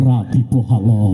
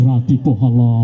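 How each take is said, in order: No difference in how they are said.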